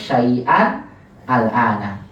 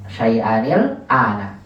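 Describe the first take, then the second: First: There is a break between the words. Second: The words are joined without a break.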